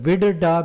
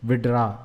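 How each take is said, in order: First: The word is said carefully with every syllable. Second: The word is said fast with syllables merged.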